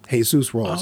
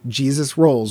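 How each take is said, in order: First: The name is said with Spanish sounds. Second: The name is said with English sounds. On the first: This is how the character himself says the name. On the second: This is the usual way to say the name.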